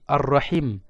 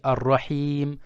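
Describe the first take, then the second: First: The vowel in the last syllable is short. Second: The vowel in the last syllable is long. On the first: It means the womb. "si je prolonge pas" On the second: It means the most merciful. "Je prolonge"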